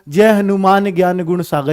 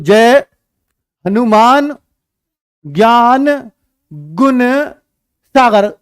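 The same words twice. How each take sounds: First: It is recited with a steady, flowing rhythm. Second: It is recited with a broken, uneven rhythm.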